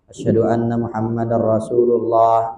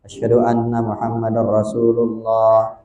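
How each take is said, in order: The two takes are said the same way.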